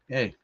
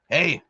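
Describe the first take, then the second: First: It is said in the speaker's own natural voice. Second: It is said in an imitated, distinctive character voice. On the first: The speaker greets someone himself. "I just kind of gave him that nod, like" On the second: Someone else says it back. "he said in that Bill Mosley voice"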